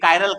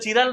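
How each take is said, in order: First: The word begins with a 'k' sound. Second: The word begins with a 'ch' sound. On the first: The speaker calls it right. "इसका pronunciation क्या होता है? कायरल" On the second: The speaker calls it wrong. "लिख तो चिरल रहे हैं"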